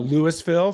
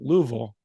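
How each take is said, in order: First: The name is said closer to its spelling. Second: The name is said short, like 'Lou-vul'. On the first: This is how outsiders say it. The speaker calls it wrong. "for those of you that are uninformed. Don't ever say that" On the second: This makes you sound like a local. The speaker calls it right. "it's basically pronounced Lou, like L E W, Vul, V U L"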